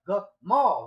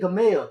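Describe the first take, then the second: First: The second vowel sounds like 'ah'. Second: The second vowel sounds like 'eh'. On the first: The speaker calls it right. "it's Gamal. Gamal, right?" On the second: The speaker calls it wrong. "They say Gamel. It's not Gamel"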